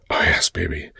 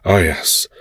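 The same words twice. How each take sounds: First: Breathy unvoiced yes, baby; whispering. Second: Said in the usual way. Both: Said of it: "I breathed".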